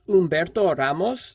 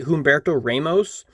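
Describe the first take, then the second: First: The first name starts without an H sound. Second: The first name starts with an H sound. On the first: It follows the Spanish pronunciation. The speaker calls it right. "it's pronounced Humberto Ramos, because it's Spanish" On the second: It follows an English-style pronunciation. The speaker calls it wrong. "I've heard a lot of people say Humberto Ramos"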